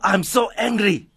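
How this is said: The voice sounds aggressive and heated. "the tone of your voice is showing aggression"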